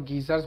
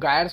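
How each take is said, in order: First: It starts with a hard g and an ee sound. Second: It starts with a hard g and a long i sound. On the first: The speaker calls it wrong. "गीजर नहीं है गायर्स है" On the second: The speaker calls it right. "इनको गायर्स बोला जाता है"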